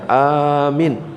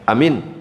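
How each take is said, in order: First: Only the first vowel is long. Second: Both vowels are short. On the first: It means asking for protection. "Kalau A-nya yang panjang" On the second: It means trustworthy. "Pendek misalkan amin"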